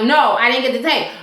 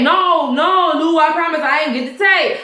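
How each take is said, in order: First: Said in the usual way. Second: Higher, pleading-style mock denial; insistent denial. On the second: Officer swears to his boss he lacks tape, insistent denial. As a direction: protest it emphatically, pitched up.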